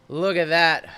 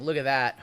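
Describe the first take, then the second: First: Louder excited repeat. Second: Said in the usual way. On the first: Real, not acted. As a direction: show it off with real delight. Showing off a card.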